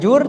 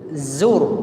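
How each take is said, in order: First: It begins with a j sound. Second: It begins with a z sound. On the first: The speaker calls it wrong. "Bukan jur" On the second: The speaker calls it right. "tapi zur. Mirip dengan z"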